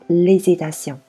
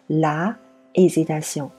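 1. 冠词被省略，并与名词连读。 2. 冠词在名词前是一个单独的音节。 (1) "我们会直接缩合成hesitation" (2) "我们不会说la hesitation"

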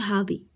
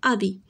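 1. Le mot commence par un son h audible. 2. Le mot commence directement par une voyelle. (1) "ما كنقولوش هابي" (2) "كنقولوا ابي"

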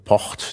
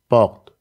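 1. Das R ist ein stimmloser, zischender Reibelaut. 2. Das R ist ein stimmhafter, nicht gerollter Laut. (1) "die stimmlose Variante Port, die eindeutig ein Frikativ ist" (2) "die stimmhafte Variante wäre eben Port"

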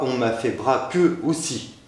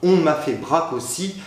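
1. Le « e » final de braque est prononcé. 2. Le « e » final de braque est muet. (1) "et non pas" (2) "On ne prononce pas le « e » de « braque »"

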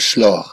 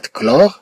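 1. Le mot commence par un son sh. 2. Le mot commence par un son k. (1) "لا نقول شلور" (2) "مثلا كلمة كلور نقصد بها الكلور"

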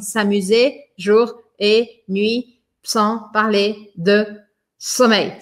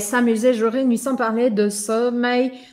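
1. Cada palavra é dita separadamente e devagar. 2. As palavras se juntam rapidamente e com ritmo. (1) "A gente fala assim" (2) "a gente precisa meio que dar uma acelerada"

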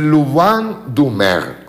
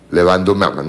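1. La primera sílaba tiene un sonido 'loo' redondeado. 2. La primera sílaba tiene un sonido 'le' sencillo. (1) "se dice" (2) "me dicen que no se dice"

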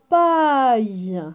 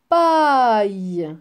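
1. La voyelle est un son 'eye' qui se termine par y. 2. La voyelle est un son 'eye' qui se termine par y.

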